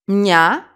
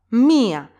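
First: MIA said as mya, a single loud beat; "mia" with i and a run together; one syllable. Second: MIA as MI-a, stress on the i; "mia" in two beats, accent on the first; two syllables. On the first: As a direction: glide "mia" straight into the a. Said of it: "one syllable, no accent". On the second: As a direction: keep i and a apart in "mia". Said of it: "two syllables". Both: Shown as a demonstration.

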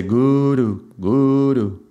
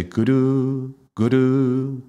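First: Guru with the first u drawn out; long first u. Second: Guru with the second u drawn out; long second u. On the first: Demonstrating the darkness version, first u long. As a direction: say guru, dwelling on the first syllable. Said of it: "we are emphasizing darkness". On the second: Demonstrating the light version, second u long. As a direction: say guru, dwelling on the second syllable. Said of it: "we are emphasizing light". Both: Shown as a demonstration.

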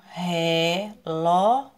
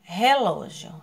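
First: Reló split as re... ló; reló in two isolated, held beats; syllable by syllable. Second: Said in the usual way. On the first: Shown as a demonstration. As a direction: stretch both syllables of reló. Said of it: "também ficou sozinho". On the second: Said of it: "separe as suas sílabas".

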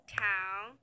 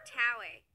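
First: "Tower" as two beats with a long pause between; syllable by syllable. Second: Said in the usual way. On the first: Shown as a demonstration. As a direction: break "Tower" apart, first syllable low and rising. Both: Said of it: "has two syllables".

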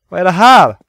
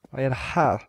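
First: "Vad är det här?" louder and higher, jolted; startled exclamation. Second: Said in the usual way. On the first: Real, not acted. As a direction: blurt it out startled. Startled loud repeat.

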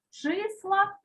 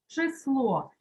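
First: Числа stressed on the first vowel, И; stress on first syllable. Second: Число stressed on the final О; stress on last syllable. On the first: Teacher dictates a word pair, Числа stressed on И. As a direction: put the beat on the И in Числа. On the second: Teacher dictates a word pair, число stressed on final О. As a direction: put the beat on the last vowel of число. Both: Shown as a demonstration. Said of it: "проставляти наголос".

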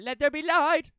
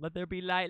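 First: Higher and louder, godlike decree; grand proclamation. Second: Said in the usual way. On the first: Acted. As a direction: proclaim it like a deity. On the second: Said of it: "repeated grandly".

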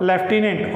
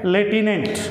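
First: लेफ्टिनेंट with an f sound, lef-ti-nent; Hindi pronunciation. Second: लेफ्टिनेंट without the f, le-ti-nent; English pronunciation. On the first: Teacher giving the Hindi form, लेफ्टिनेंट said lef-ti-nent. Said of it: "Hindi में क्या बोलते हैं इसको". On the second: Teacher giving the English form, लेफ्टिनेंट said le-ti-nent. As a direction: drop the f from लेफ्टिनेंट. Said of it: "English में क्या बोलते हैं". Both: Shown as a demonstration.

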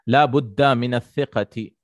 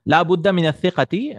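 First: Said in the usual way. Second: Higher and louder, clearly declaimed; loud emphatic reading. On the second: Shown as a demonstration. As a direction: proclaim the phrase for the class. Rereads the phrase after clearing throat.

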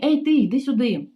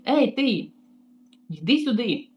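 First: Louder, higher rude summons; mock yell. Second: Mock yell. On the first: Receptionist shouting at the maid across the lobby, loud rude call. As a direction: call her over like a servant. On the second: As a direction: bark the order like a rude boss. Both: Receptionist calls her over.

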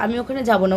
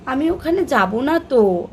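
First: Said in the usual way. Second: Put-on a little higher and slower, like a toddler; daughter's way. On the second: Mother imitating her toddler refusing to go, higher and slower. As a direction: mimic the little one's pouty refusal. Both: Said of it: "ও কীভাবে বলবে".

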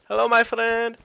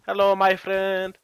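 First: Higher, louder Mexican accent take. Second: Slow Mexican accent greeting; lightly voiced Mexican accent. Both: Shown as a demonstration. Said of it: "I can do, like, a".

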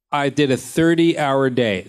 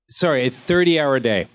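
First: Thirty-hour said slowly and firmly; slow emphatic repeat. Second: Said in the usual way. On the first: Shown as a demonstration. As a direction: lean on thirty-hour to drive it home.

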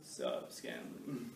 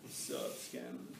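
First: Slow, drawn-out guy greeting; slow dude greeting. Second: Low, husky dude voice with a breathy edge; mock tough-guy greeting. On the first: Retold or imitated. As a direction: stretch it out like a lazy dude. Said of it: "no dude in here come here and go". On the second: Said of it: "then they come and go".

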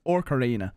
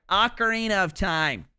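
First: "Ocarina" said the streamer's own Irish way, first syllable like "ock". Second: "Ocarina" said the standard way, first syllable "oh"; correct pronunciation. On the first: Streamer showing how he always says "Ocarina", Irish style. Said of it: "That's how I've always said it". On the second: Streamer correcting himself to the standard "Ocarina". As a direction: carefully say "Ocarina" with an "oh" start. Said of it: "I know that's the correct way to say it". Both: Shown as a demonstration.

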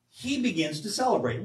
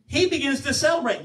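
First: Said in the usual way. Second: "He" raised and leaned on, the rest falling away; stress on he. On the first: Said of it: "Read it for yourself". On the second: Shown as a demonstration. Preacher to congregation, stressing "He". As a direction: hit "He" so it means he and no one else. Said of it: "not before".

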